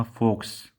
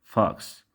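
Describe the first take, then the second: First: فوكس said "fokes", with a closed "oh"; wrong rounded vowel. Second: فوكس corrected to "faks", short open "ah"; open vowel. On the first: Teacher shows students the wrong way, rounded vowel in فوكس. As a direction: mispronounce فوكس with rounded lips on the O. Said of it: "خطأ". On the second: Teacher corrects the mistake, open vowel in فوكس. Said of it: "فإنه ينطق كالواو المفتوح". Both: Shown as a demonstration.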